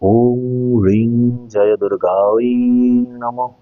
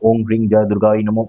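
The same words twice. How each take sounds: First: The phrase is said slowly. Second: The phrase is said fast. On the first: The speaker calls it right. "আমি যেরকম ভাবে বললাম এইভাবে slowly একটু করার চেষ্টা করবেন" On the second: The speaker calls it wrong. "তাড়াতাড়ি তাড়াতাড়ি ... এরকম না করে"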